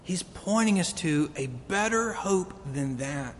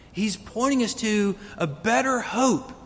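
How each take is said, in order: First: Said in the usual way. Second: Repeated line lifted, "pointing" pressed; stress on pointing. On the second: Shown as a demonstration. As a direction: lean into "pointing" as you repeat it.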